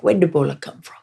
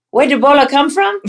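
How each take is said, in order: First: Put-on lightly done Liberian pidgin accent question. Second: High, louder incredulous Liberian pidgin question; mock Liberian question. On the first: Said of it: "they have an, a pidgin accent". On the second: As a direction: echo the grave digger, pitched up in disbelief. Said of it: "I'm like".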